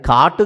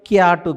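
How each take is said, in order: First: It has a plain 'aa' vowel and a final 'u'. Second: It has a 'yaa' vowel and a final 'u'. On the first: "అది కాటు కాదు" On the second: "క్యాటు కాదు"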